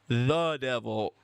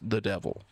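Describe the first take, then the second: First: The word 'the' is strongly stressed. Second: The word 'the' is light and unstressed. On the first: "I'm not talking like the devil" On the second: "when I say the, I mean little the"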